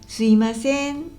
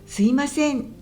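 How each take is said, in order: First: It uses Kansai dialect pitch intonation. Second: It uses standard Japanese pitch intonation. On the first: "関西弁だと…すいませんというイントネーションになります" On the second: "すいませんじゃなくて"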